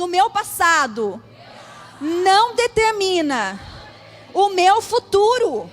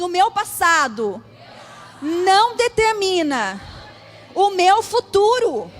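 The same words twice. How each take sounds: First: It is said with strong, forceful conviction. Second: It is said with strong, forceful conviction.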